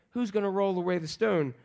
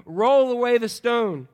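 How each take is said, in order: First: Said in the usual way. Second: Louder, slow, drawn-out order; stretched-out, raised-voice instruction; firm command. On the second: Acted. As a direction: give the disciples a deliberate command. Jesus commanding the disciples, acted.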